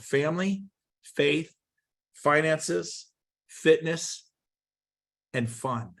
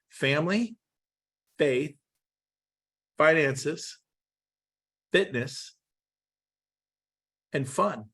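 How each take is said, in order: First: The list is said quickly. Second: The list is said slowly. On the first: "I'll say it quick" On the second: "then say it slower"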